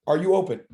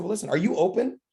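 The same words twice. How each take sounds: First: Are YOU open, punch you and fall; stress on you. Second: Are you OPEN, rising on open; easy ask with open rising; stress on open. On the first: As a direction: lean on the word you, a bit louder. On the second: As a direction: lift the word open into a question. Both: Shown as a demonstration. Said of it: "Write this down".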